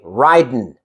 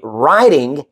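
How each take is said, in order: First: The word ends with a plain 'n' sound. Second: The word ends with a full 'ing' sound. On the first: "you say ridin'" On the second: "Instead of saying riding"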